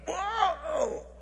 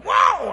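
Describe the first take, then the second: First: High, startled yelp; hollered whoa. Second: Very high, very loud startled yell; full holler. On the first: Preacher re-enacting being sucked out of the room, high holler. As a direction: cry out high as if yanked upward. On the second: Preacher showing how he literally hollered, loud high yell. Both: Retold or imitated. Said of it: "I mean, I literally hollered".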